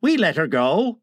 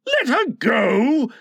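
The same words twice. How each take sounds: First: Mildly pleased with himself; untroubled henchman's answer; complacent. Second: High, drawn-out outrage; appalled captain, pitched up; incredulous cry. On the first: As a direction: report it easily, as good news. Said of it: "Smee answered complacently". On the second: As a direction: cry it slowly in disbelief. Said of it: "cried Hook". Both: A narrator's reading.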